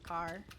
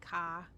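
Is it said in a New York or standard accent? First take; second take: standard; New York. First: It is said with a standard accent. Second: It is said with a New York accent.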